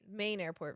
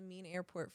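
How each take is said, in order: First: Said in the speaker's own American accent. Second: Said in an Australian accent, main sounding like mean.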